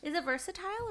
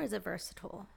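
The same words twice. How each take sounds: First: "versatile" ending like "tile"; fancy "versatile", last syllable rhymes with "mile"; versatile with long I. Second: "versatile" ending like "-tul"; versatile with reduced ending. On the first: Asking which is right, "versatile" as "versa-tile". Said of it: "versatile sounds very fancy". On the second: Asking which is right, "versatile" as "versa-tul". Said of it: "or is it versatile". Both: Shown as a demonstration.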